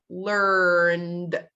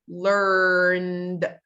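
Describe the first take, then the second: Both takes have the same delivery.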